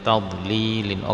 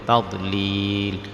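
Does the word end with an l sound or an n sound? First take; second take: n sound; l sound. First: The word ends with an added n sound. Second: The word ends on a bare l sound. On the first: The reading continues without stopping. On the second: The reader stops at this word.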